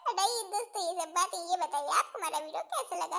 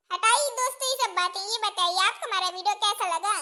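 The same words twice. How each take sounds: First: Laughing. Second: Said in the usual way. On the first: Real, not acted. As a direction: repeat हटाइए दोस्तों while laughing.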